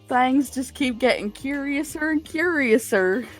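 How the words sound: It is said in a Southern American accent. The speaker calls it right. "It's gonna be a redneck one too, not a good one"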